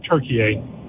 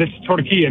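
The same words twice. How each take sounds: First: Turkiye anglicized, weight off the middle KI; wrong pronunciation. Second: Turkiye said as tor-KEE-yeh; correct pronunciation. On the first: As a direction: say Turkiye slowly, the mistaken Western way. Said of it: "not Turkiye". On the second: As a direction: say Turkiye with a light final "yeh". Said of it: "trying to get it corrected". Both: Shown as a demonstration.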